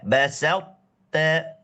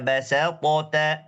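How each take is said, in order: First: The first t stops dead without echo. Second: The first t bounces with an echo vowel. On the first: The speaker calls it right. "Tanpa qalqalah" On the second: The speaker calls it wrong. "Jangan baca basatata"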